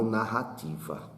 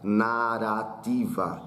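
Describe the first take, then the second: First: The middle R is a strong throaty sound. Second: The middle R is a light tapped sound. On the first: The word is spelled with a double R. "e não" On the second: The word is spelled with a single R. "se eu tivesse só um R, a palavra seria pronunciada"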